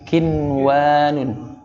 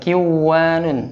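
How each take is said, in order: First: The n sound is pronounced clearly before w. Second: The n sound is merged into the w. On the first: The speaker calls it right. "tapi kinwanun, izhar" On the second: The speaker calls it wrong. "bacanya bukan kiwanun"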